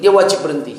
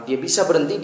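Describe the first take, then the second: First: WAJIB said louder to correct "bisa"; stress on WAJIB. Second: Said in the usual way. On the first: Real, not acted. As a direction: hit the word "wajib" with firm volume. (tekanan keras pada kata "wajib")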